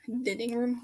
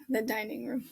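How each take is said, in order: First: "Dining" said DIN-ing with a short i, puzzled rise; "Dining" with a short i as in din, asking; mispronounced dining. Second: Said in the usual way. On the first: Shown as a demonstration. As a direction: repeat the slip "Dining room?" as DIN-ing, questioning. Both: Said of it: "What the heck?".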